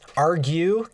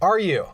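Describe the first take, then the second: First: The G sound is clearly pronounced. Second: The G sound is left out. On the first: The speaker calls it wrong. "Come on" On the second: The speaker calls it right. "There we go. Makes sense"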